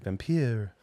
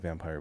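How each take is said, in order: First: It is said in a put-on vampire voice. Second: It is said in an ordinary speaking voice. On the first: The speaker calls it right. "I didn't do my vampire" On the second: The speaker calls it wrong. "We don't say vampire"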